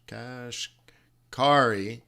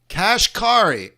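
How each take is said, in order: First: Kashkari stretched out very slowly; drawn-out pronunciation. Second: Slow and deliberate, a bit louder; careful pronunciation. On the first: Slowly spelling out Kashkari for the viewers, drawn out. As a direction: drag out every sound of Kashkari. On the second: Sounding out the Fed president's name Kashkari carefully. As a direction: say Kashkari steadily, syllable by syllable. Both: Shown as a demonstration. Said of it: "You guys are gonna laugh".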